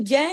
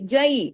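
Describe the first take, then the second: First: The vowel is a flat Urdu-style sound. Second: The vowel glides softly into the y sound. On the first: The speaker calls it wrong. "इसको जय नहीं करेंगे, उर्दू की तरह नहीं पढ़ेंगे" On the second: The speaker calls it right. "आवाज में नरमी से मोड़ पैदा हो जाता है"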